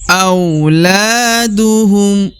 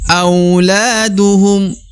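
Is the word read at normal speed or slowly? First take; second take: slowly; normal. First: The word is read at a slowed pace. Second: The word is read at a normal pace.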